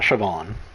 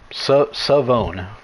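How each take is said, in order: First: The name is said like Siobhan. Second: The name is said like Savone. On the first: The speaker calls it wrong. "It's not Siobhan" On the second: The speaker calls it right. "Pronunciation. Savone"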